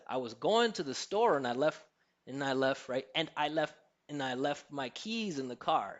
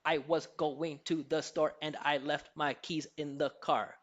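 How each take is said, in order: First: GOING, STORE, LEFT, KEYS and CAR stand out, small words tucked away; flowing English stress timing with reduced "and I"; natural rhythmic contrast. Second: Every word from WAS to CAR given equal, separate weight; choppy syllable-by-syllable delivery, no reduced "to" or "the"; all syllables even. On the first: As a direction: stress "keys" and "car", glide quickly over "in the". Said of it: "Instead of". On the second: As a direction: imitate evenly stressed Mandarin-accented English. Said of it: "give it to us all even". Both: Shown as a demonstration.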